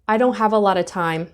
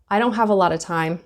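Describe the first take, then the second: First: The t in don't is dropped. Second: The same.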